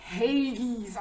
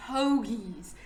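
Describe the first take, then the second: First: "Hagies" with a hay sound instead of ho; mock the mispronunciation "Hagies"; wrong hagies. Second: "Hoagies" with a round ho and hard g, as in geese; correct hoagies. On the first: Mocking the TV dude's wrong hoagies. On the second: Shown as a demonstration. Teaching the dude the Philly way, carefully. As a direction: show the right "Hoagies". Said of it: "say ho and say geese and put ho".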